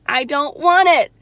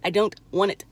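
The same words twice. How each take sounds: First: "want" stressed, loud and slow; firm refusal, "want" louder and slower; emphatic refusal. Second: Said in the usual way. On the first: Real, not acted.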